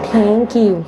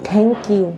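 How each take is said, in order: Both takes have the same delivery.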